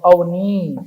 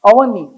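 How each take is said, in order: First: The final vowel is long. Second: The final vowel is short. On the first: "बड़ी ई" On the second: "छोटी"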